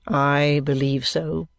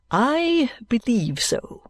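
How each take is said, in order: First: Low, slow monotone assent; dry, subdued lawyer. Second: High, slow, drawn-out assent; pompous lawyer. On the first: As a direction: echo it low and level. Vholes echoes Kenge's answer. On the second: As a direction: swell grandly on the first word. Kenge's answer, echoed by Vholes. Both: Acted.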